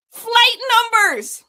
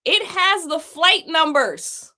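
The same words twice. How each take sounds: First: Much higher and louder, slow incredulous cry of Flight numbers!; exclaimed in disbelief. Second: Said in the usual way. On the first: Real, not acted. Streamer exclaiming to chat about the scam contract, loud and high in disbelief.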